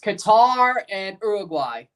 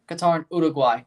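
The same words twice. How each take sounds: First: The names have a plain English pronunciation. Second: The names have a Spanish-style pronunciation. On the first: The speaker calls it wrong. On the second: The speaker calls it right.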